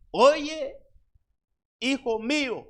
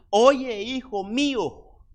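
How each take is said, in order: First: Llamado de madre, más agudo y fuerte; voz de madre. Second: Madre que llama a su hijo, aguda y fuerte; llama al hijo como una madre, alzando la voz. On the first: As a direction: una madre que insiste, subiendo el tono. (una madre llama otra vez al hijo, más aguda) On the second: (una madre llamando a su hijo con voz alta y fuerte) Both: Acted. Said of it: "Una madre".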